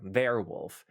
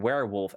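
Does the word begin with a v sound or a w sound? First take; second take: v sound; w sound. First: The word begins with a v sound. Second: The word begins with a w sound. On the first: The speaker calls it wrong. "So that's wrong" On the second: The speaker calls it right. "of course you have werewolf and vampire"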